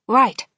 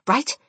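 First: "Right" said louder and higher, as an answer; confirming reply. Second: "Right" rising as a question; questioning check. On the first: Grandchild agrees to plan, "Right" as firm answer. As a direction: answer "Right" firmly and promptly. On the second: Grandmother checking the plan, "Right" with questioning rise. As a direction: lift "Right" to ask for agreement. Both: A narrator's reading.

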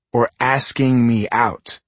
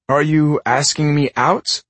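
First: "asking" weighted and slow, meaning romantic; stress on asking. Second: "out" lifted and drawn out slowly; stress on out. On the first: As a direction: lean hard on "asking". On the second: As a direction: lean on "out" as a plain question. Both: Acted.

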